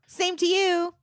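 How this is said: It is said in a bright, chipper tone. "we need a little more chipper"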